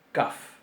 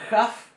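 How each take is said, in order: First: "kaf" con k cortante; kaf oclusiva. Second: "jaf" con j fricativa y subida. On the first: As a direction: golpea la k de "kaf". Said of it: "con puntito va a sonar". ("kaf" oclusiva, demostrada) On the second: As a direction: estira la j de "jaf". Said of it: "sin puntito va a sonar". ("jaf" fricativa, demostrada) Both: Shown as a demonstration.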